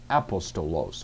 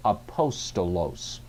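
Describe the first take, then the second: First: APostolos, stressed on the opening A; stress on first syllable. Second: Slow aPOStolos, stressed on POS; stress on antepenult. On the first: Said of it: "several ways you might pronounce it". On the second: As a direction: say "apostolos" slowly, leaning on the second syllable, POS. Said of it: "learn it the correct way". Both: Shown as a demonstration.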